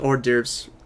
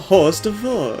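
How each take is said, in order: First: The word ends with a 'derv' sound. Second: The word ends with a 'vol' sound. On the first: The speaker calls it right. "it was hors d'oeuvres" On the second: The speaker calls it wrong. "horribly pronounced"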